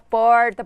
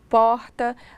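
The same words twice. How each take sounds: First: It is said with a Colorado accent. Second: It is said with a Porto Velho accent.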